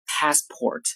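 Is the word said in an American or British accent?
American. It is said in an American English accent. "到美式里面发作 passport"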